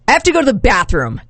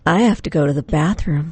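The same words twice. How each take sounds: First: It sounds irritated and angry. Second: It sounds playful and flirty.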